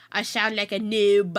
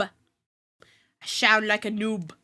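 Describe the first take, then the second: First: Said in the usual way. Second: Slow, stretched-out self-mockery; drawn-out repeat. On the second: Real, not acted. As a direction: drag the words out slowly.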